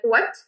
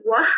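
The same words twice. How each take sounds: First: Said in the usual way. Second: "Wah?" said short with no final t, Hadrami style; clipped Hadrami "Wah?" as a quick question. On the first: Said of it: "when I wanna say, like". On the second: Shown as a demonstration. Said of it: "I can't say it in Hadrami".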